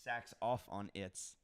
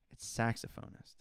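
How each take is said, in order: First: Saxophonist slowly split as sax-OFF-on-ist; British pronunciation. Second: Saxophonist as SAX-uh-phone-ist, softer; American pronunciation. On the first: Trying out the word, saxophonist as slow sax-OFF-on-ist. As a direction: sound out saxophonist slowly, stress on OFF. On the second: Correcting the word to oneself, saxophonist as SAX-uh-phone-ist. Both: Shown as a demonstration. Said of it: "I say things wrong".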